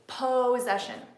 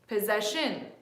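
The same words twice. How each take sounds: First: The stress is on the first syllable. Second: The stress is on the third syllable. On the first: "If I stressed the first sound, it would be" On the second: "if I stressed the third, it would be"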